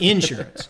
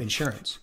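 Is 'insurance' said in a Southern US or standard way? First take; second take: Southern; standard. First: It is said the Southern US way again. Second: It is said the speaker's standard way.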